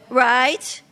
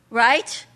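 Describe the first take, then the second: Both takes have the same delivery.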